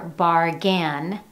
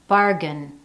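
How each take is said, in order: First: The final syllable has a full, clear vowel. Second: The final syllable has a reduced 'uh' vowel. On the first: The speaker calls it wrong. "you don't hear bargain" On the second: The speaker calls it right. "you hear bargain, uh, uh"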